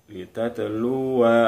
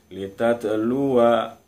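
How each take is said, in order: The two takes are said the same way.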